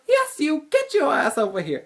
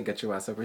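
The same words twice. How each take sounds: First: High, loud bossy command; imitated yell. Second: Said in the usual way. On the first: Hall monitor ordering the student over, loud high yell. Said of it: "And she goes". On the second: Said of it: "She didn't say".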